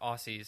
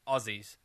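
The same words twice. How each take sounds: First: The middle consonant is a hissing s sound. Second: The middle consonant is a buzzing z sound. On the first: The speaker calls it wrong. "It's not Aussies as I used to say" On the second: The speaker calls it right. "It's Aussie as in [name]"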